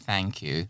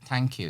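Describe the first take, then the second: First: The first word begins with a TH sound. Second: The first word begins with a plain T sound. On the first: "instead of" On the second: "they tend not to pronounce the T H sound as th"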